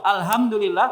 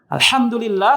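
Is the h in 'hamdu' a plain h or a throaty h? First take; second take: plain h; throaty h. First: The h is a plain, light sound. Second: The h is a throaty, deep sound. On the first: All destruction belongs to God. The speaker calls it wrong. "segala kebinasaan bagi Allah" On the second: All praise belongs to God. The speaker calls it right. "segala puji bagi Allah"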